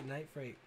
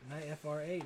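First: Said in the usual way. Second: "Night F R A" with F, R, A spelled out as separate letters. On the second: Shown as a demonstration. Host tries reading the winner's name spelled out, quiet and low. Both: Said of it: "Is it Night F R A or Night Freight?".

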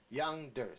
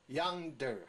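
First: Yonder joined up, stress on YON; stress in front. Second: Yonder slowly as yon, der, two separate beats; syllable drill. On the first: Teacher says the weight is in front, stress demo. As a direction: punch the first syllable of yonder, der light. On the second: Teacher reads the example word, slow syllable demo. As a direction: hold the halves of yonder apart. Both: Shown as a demonstration. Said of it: "重在前面".

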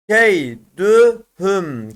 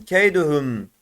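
First: Keydühüm very slowly as key, dü, hüm; drawn-out Keydühüm with gaps between syllables. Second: Said in the usual way. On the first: Shown as a demonstration. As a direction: separate each syllable of Keydühüm. Teacher reads word by syllables.

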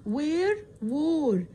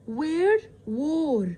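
The two takes are said the same way.

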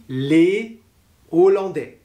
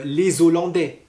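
First: "les Hollandais" with a clear gap after les; "les Hollandais" split as lé, o-lan-dé; no liaison. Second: "les Hollandais" with a z linking, lé-zo-lan-dé; wrong liaison. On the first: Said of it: "on dira aussi". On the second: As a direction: link "les Hollandais" with a z sound. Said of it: "on dit pas". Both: Shown as a demonstration.

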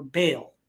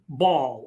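First: "Baal" said slowly as BAY-ul; pronounced BAY-ul. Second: "Baal" said slowly as BAWL; pronounced BAWL. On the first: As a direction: say "Baal" like the word "bail". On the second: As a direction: say "Baal" like the word "ball". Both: Shown as a demonstration. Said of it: "some may pronounce it".

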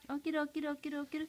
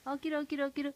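First: Said in the usual way. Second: Whispering. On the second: Shown as a demonstration. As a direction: whisper it to the baby. Whispered repeat of wake-up call.

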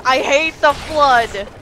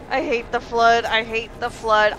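First: Loud exasperated outburst; frustrated yell. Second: Said in the usual way. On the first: Real, not acted. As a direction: shout it out in frustration. Rant builds to a yell.

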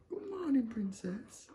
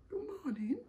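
First: Sing-song greeting. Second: Whispered greeting. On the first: Greeting the baby on waking. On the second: Whispered greeting to waking baby. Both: Real, not acted.

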